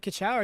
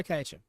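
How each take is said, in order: First: Kaicha said as "ka-CHOW"; alternative pronunciation. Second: Kaicha said as "KAI-cha"; pronunciation as read. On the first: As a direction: end Kaicha on an "ow" sound, like "chow". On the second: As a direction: open Kaicha with "kai", end on a short "cha". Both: Shown as a demonstration. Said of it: "that reads like Kaicha to me".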